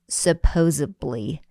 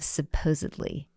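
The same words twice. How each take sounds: First: The word is said with a b-like sound, 'supposably'. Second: The word is said with a d sound, 'supposedly'. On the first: The speaker calls it wrong. "The worst for my ears is" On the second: The speaker calls it right. "instead of"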